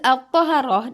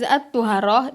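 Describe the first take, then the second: First: The first syllable has the vowel a. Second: The first syllable has the vowel u. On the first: It means cleanliness. "dengan dibaca huruf to-nya" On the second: It means the leftover water used for purification. "dengan dibaca dhammah huruf to-nya"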